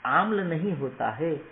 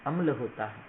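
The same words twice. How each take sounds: First: आम्ल said with a long first vowel, aaml, rising; wrong pronunciation. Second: अम्ल said with a short first vowel, aml, falling; right pronunciation. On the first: Teacher demonstrating the wrong long vowel in आम्ल. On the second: Teacher demonstrating the short first vowel in अम्ल. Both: Shown as a demonstration.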